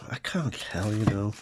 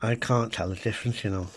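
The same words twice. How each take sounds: First: Soft whispered aside. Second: Said in the usual way. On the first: Real, not acted. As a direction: breathe it out as a secret. Blind butter taste test.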